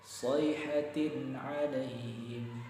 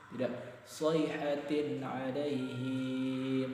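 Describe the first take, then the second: First: The final vowel of alaihim is kept short. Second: The final vowel of alaihim is drawn out. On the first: The speaker calls it right. "Alaihim tidak dipanjangkan" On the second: The speaker calls it wrong.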